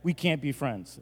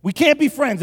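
First: Soft, deadpan verdict; quiet finality. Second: High, loud, indignant verdict; mock outrage. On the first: Pretend. Pastor disowning his cereal-bungling buddy, quiet finality. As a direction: say it softly, as settled fact. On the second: Pastor disowning his cereal-bungling buddy, mock outrage. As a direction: cry it out in pretend outrage.

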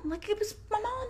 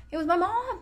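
First: Higher and tearful, choking up on it; real tears about her mom; voice breaking. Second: Said in the usual way. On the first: Real, not acted. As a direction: let it crack as the tears come. Repeats line, voice breaking.

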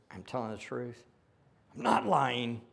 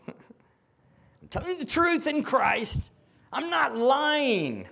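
First: Said in the usual way. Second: High, loud and slow, landing on truth and not; emphatic reading. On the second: Shown as a demonstration. Preacher driving Paul's words home to the congregation. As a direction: read "I'm telling the truth in Christ. I'm not lying" slowly and loud, hammering truth and not. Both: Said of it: "Make sure you get this down".

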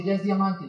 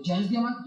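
First: "Ya es diamante" low, soft and falling; falling tune ending on "diamante"; matter-of-fact statement. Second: "diamante" low, soft and rising; questioning lift at the end of "diamante"; incredulous question. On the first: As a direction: state "diamante" as settled news. Friend reports news as statement. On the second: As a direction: echo "Ya es diamante" in muted disbelief. Teller questions the news in disbelief. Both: Retold or imitated.

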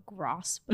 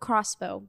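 First: Crossbow said low and soft with the voice cracking. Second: Said in the usual way. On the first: Real, not acted. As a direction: Crossbow comes out quiet and croaky. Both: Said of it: "The fuck was that?".

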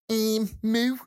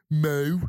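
First: Cow mooing high in a Liverpool accent; higher-pitched Scouse moo. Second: Cow mooing in a Birmingham accent. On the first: Podcaster guessing how Liverpool cows sound, Scouse-accented moo. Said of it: "in Liverpool". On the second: Podcaster guessing how Birmingham cows sound, Brummie-accented moo. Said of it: "down in Birmingham". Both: Shown as a demonstration.

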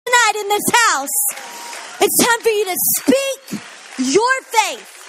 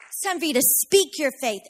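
First: Higher and louder, slow and urging; fervent preaching. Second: Said in the usual way. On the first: Acted. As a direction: call the church to declare it. Urging the congregation.

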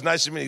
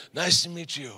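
First: Said in the usual way. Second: Soft-spoken tough-guy imitation; Glenn. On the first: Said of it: "I meet him. I talk to him". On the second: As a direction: mimic the intimidating man's quiet greeting. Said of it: "this is exactly how he talks".

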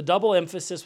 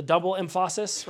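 First: Said in the usual way. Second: "emphasis" said em-FAH-sis; misplaced stress. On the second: Shown as a demonstration. Preacher joking about the right emphasis, misplaced stress. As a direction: joke stress on the middle syllable of "emphasis". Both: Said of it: "right emphasis on the right syllable".

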